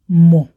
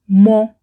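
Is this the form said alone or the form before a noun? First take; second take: alone; before noun. First: The word has its stand-alone pronunciation. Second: The word has its pronunciation used before nouns. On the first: The verb stands by itself. "When it is in an isolated state, it sounds as mo" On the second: The verb is followed by a noun. "when it is with a noun in a sentence, it sounds as mo"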